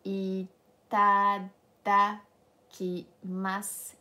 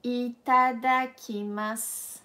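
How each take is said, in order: First: Itadakimasu stretched out very slowly, syllable by syllable; very slow model. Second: Itadakimasu said slowly, every syllable clear; slow clear model. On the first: Teacher says it very slowly for the class to repeat. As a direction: drag out Itadakimasu for them to copy. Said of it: "So repeat after me". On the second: Teacher models the word slowly for students. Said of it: "what we say in Japanese before eating is". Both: Shown as a demonstration.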